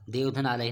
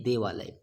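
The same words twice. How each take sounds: First: देवधन आलय said as separate chunks, the wrong way; wrong split form. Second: देवालय said as one word, low and final; correct joined form. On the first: Teacher to class, the incorrect split form, said apart. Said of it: "नहीं". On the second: Teacher to class, the correct joined form, said firmly. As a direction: land देवालय as a single blended word. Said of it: "एक ही में करना होता है". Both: Shown as a demonstration.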